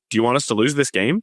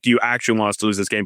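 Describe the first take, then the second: First: It is asked sincerely, without hostility. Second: It is asked in a hostile, challenging way.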